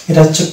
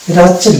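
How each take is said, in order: No difference in how they are said.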